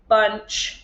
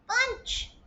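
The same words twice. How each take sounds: First: The word is said in a flat mechanical voice. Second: The word is said in a squeaky high voice. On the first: "say it in a robot voice" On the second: "say it in a mouse voice"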